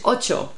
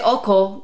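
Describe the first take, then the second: First: The middle consonant is a ch sound. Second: The middle consonant is a hard k sound. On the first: The speaker calls it right. "For us is always CH sound" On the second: The speaker calls it wrong. "Why do you think people choose OCO?"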